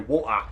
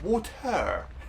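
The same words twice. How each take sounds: First: It is said in a Cockney London accent. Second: It is said in a posh English accent. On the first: This is how the speaker really talks. The speaker calls it right. "We speak Cockney" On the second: This is how the speaker refuses to talk. The speaker calls it wrong. "I ain't speaking posh"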